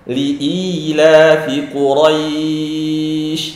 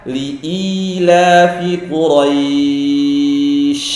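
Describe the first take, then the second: The two takes are said the same way.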